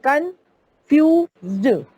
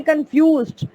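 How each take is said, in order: First: confused drawn out slowly, split into syllables. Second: Said in the usual way. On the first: Shown as a demonstration. Teacher showing confused has more syllables, syllable by syllable. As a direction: break confused into separate, slow beats. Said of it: "ज्यादा syllable आ रहे हैं".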